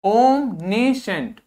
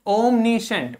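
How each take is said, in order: First: omniscient drawn out very slowly, each syllable clear; slow model word. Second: Said in the usual way. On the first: Shown as a demonstration. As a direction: stretch omniscient for the class. (Omniscient को धीरे-धीरे बोलें) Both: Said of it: "इसको देखिए".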